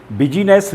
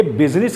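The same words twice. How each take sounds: First: बिजीनेस in three syllables, bi-jee-nes; I sounded. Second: बिजनेस in two syllables, biz-nis; silent I. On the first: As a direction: voice the middle i of बिजीनेस. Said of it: "बिजीनेस नहीं कहेंगे". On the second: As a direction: drop the middle i of बिजनेस. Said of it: "ये बिजनेस कहलाता है". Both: Shown as a demonstration.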